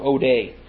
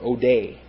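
First: The stress is on the first syllable. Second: The stress is on the last syllable.

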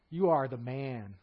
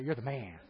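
First: It is said as a grave accusation. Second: It is said as casual, admiring praise.

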